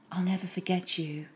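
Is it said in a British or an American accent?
British. It is said in her own British accent.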